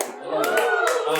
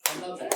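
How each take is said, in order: First: "I love that" dicho muy agudo y lento; drawn out in a squeaky high voice; high, stretched "I love that". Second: Said in the usual way. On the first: Real, not acted.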